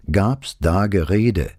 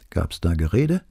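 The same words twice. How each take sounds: First: Slow, higher "gab's da Gerede", each word stressed; insistent repeat. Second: Said in the usual way. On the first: A narrator's reading. Investigator repeats his question to an evasive witness, "gab's da Gerede" slow and insistent. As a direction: press "gab's", "da" and "Gerede" separately, slowly.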